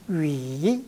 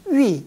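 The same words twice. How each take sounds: First: The syllable is said with the third tone. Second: The syllable is said with the fourth tone. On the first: It means to speak or talk. "상성은 이 중국식으로 발음을 하면은" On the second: It means to tell or inform someone. "거성으로 백화에서는 제사 성으로 발음을 하는"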